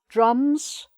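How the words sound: The vowel is an open, ah-like sound. "in R P would be"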